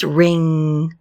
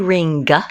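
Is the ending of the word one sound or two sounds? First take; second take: one sound; two sounds. First: The ending is a single nasal ng sound. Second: The ending is two sounds, n then g. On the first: The speaker calls it right. "it's ring, one sound" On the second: The speaker calls it wrong. "We don't say ring"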